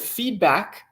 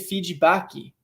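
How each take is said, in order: First: The word ends on the k sound. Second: An extra vowel is added after the k. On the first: "I hear the word feedback" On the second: "I hear people say feedbacky"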